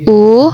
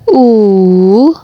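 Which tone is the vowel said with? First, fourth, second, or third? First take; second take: second; third. First: The vowel carries the second tone. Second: The vowel carries the third tone. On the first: "nada kedua" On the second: "nada ketiga"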